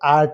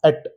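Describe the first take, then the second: First: The vowel is long and drawn out. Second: The vowel is short and clipped. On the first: The speaker calls it wrong. "ಆಟ್ ಅಲ್ಲ" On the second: The speaker calls it right. "ಇದನ್ನ actually ಅಟ್ ಅಂತೀವಲ್ಲ ಹಂಗೆ"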